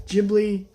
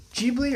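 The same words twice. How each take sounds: First: "Ghibli" with a short first i, JIB-lee; alternative pronunciation. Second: "Ghibli" with a long ee, JEE-blee; first pronunciation. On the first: Movie fan offering another way to pronounce it, "Ghibli" as JIB-lee. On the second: Movie fan offering one way to pronounce it, "Ghibli" as JEE-blee. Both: Shown as a demonstration. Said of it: "however you pronounce it".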